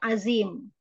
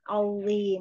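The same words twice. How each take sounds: First: The middle consonant has a hissing sound. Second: The middle consonant has no hissing sound. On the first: The speaker calls it wrong. "bukan azim" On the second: The speaker calls it right. "wo tidak ada bunyi desis sama sekali"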